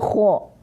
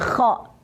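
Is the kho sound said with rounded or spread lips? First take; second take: rounded; spread. First: The kho sound is thick, with rounded lips. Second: The kho sound is thin, with spread lips. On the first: The speaker calls it right. "Tadi nyontong gitu" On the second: The speaker calls it wrong. "yang benar bukan kho"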